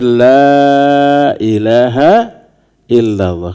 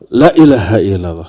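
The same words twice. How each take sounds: First: The first vowel is held long. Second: The first vowel is held short. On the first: There is no god but Allah. The speaker calls it right. "jangan salah mengucapkan" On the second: There surely is a god besides Allah. The speaker calls it wrong. "la-nya dibaca pendek"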